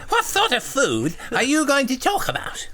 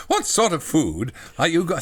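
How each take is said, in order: First: Very high, loud silly voice; hammed-up high lisping simpleton; full-on childlike John. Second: Slightly raised, simple character voice; a hint of the childlike character; lightly voiced John. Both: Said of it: "John says".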